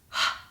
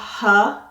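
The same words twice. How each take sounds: First: A breathy consonant is said with no vowel. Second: A voiced uh vowel follows the consonant. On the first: The speaker calls it right. "my voice box does not vibrate" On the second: The speaker calls it wrong. "they'll want to add a uh sound"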